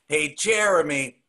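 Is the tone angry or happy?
angry. It sounds angry.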